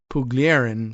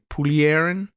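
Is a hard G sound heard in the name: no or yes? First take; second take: yes; no. First: The name is said with a hard G sound. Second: The name is said without a hard G sound. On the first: "I don't know whether there's so such a hard G in that"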